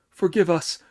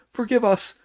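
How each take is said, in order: First: Louder, higher frightened plea; pleading. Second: Much higher, louder panicked cry; desperate shrill plea. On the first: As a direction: beg for mercy on your knees. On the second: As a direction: beg even harder, voice leaping up. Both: Acted. Terrified officers plead.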